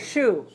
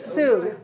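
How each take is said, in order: First: The syllable begins with a hushing sh sound. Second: The syllable begins with a hissing s sound. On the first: The speaker calls it right. "we say shu" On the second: The speaker calls it wrong. "we don't say su"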